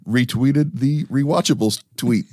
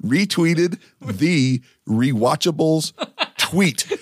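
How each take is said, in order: First: Like a nineties Latin pop hit. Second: "Retweeted the Rewatchables tweet" said slowly, every T, R and W spelled out; carefully slow so you don't trip on the T's. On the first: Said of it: "I'll say it like that nineties song". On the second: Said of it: "it's all T's, R's, and W's". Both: Shown as a demonstration.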